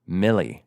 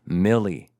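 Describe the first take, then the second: Both takes have the same delivery.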